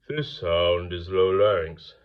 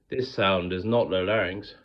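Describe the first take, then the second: First: It is spoken with a low larynx, darker. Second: It is spoken with a raised larynx, brighter.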